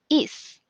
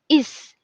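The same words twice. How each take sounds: First: The word ends cleanly on its final consonant. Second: The same.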